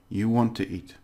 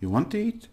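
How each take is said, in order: First: The voice falls at the end. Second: The voice rises at the end. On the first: It is stated as a fact. "I'm affirming it" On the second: It is asked as a question. "It's more like a question"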